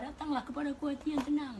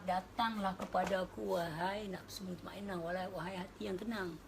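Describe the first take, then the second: First: High, emphatic call of "Datanglah"; rising declamation. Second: Slow, calm summons; divine invitation. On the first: Preacher repeating God's call to the tranquil heart, high and emphatic. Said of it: "Dia minta satu ya". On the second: God calling the tranquil soul, slow and calm. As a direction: call gently and slowly. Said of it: "Tuhan bercakap". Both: Retold or imitated.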